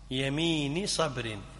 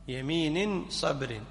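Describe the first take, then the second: First: The first word has no final n sound. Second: The first word ends with an added n sound. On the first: The oath is linked to its quality as a possessive phrase. "مضاف ومضاف إليه" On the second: The second word describes the oath as an adjective. "بقطع الإضافة"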